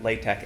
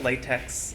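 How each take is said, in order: First: The word ends with a k sound. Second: The word ends with a ks sound. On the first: "you'll want to pronounce it latex anyway in case you're dealing with a real snob" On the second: "If you call it latex"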